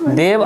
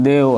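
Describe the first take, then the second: First: देव with a short 'a' sounded after the v; final vowel sounded. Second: देव cut off at the final v, no vowel after it; halant pronunciation. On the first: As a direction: let देव end in an open short 'a', as two syllables. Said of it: "लेकिन एतऽ अ के उच्चारण छै". (देव के अंत में अ के उच्चारण) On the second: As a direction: say देव as if written with a halant, ending on the bare consonant. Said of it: "हलन्त लगा दियै तऽ देव एना पढ़बै". (हलन्त संग देव, अंत में अ बिना) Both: Shown as a demonstration.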